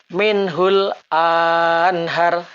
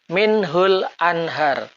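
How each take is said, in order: First: The vowel after the glottal stop is lengthened. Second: The vowel after the glottal stop is short. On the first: The speaker calls it wrong. "Bacaan akan berlaku salah sekiranya hamzah kotok dipanjangkan" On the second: The speaker calls it right. "Yang betul ... Hamzah kotok dilafazkan pendek"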